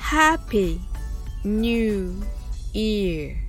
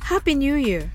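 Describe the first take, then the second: First: The phrase is said at a slow pace. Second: The phrase is said at a fast pace. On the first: "最初はゆっくりです。" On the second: "次に早く言ってみましょう。"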